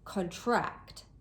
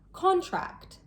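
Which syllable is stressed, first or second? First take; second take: second; first. First: The stress is on the second syllable. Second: The stress is on the first syllable. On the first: It is a verb meaning to become smaller. "As a verb, contract, the stress is placed on the second syllable" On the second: It is a noun meaning a formal agreement. "As a noun, contract, the stress is placed on the first syllable"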